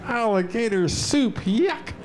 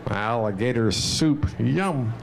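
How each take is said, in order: First: Disgusted. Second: Said in the usual way. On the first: Shown as a demonstration. Reciting a poem to children.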